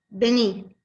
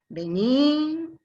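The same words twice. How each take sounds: First: It is said as a firm command. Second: It is said in a menacing way. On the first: The listener is being ordered to come. "Una es un imperativo, una orden" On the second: The listener is being threatened. "Y la tercera suena amenaza"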